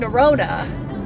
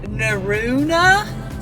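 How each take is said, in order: First: The crossed vowel is said as a plain O. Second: The crossed vowel is said like French EU. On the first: The speaker calls it wrong. "we've been saying Nerona" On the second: The speaker calls it right. "It's pronounced like E U"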